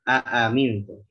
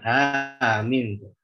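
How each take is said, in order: First: Two separate glottal catches begin the word. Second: The opening glottal catches merge into one. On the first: The speaker calls it right. "jelaskan tahqiqnya" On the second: The speaker calls it wrong.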